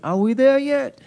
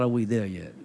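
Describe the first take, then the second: First: Put-on high-pitched kid in the back seat; imitating an impatient child. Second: Put-on low, quieter parent echoing the child; imitating a fed-up parent; exasperated parent. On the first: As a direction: whine it like a child who can't wait. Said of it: "a child can't wait". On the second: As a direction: throw the kid's question back, low and weary. Parent answering the impatient child.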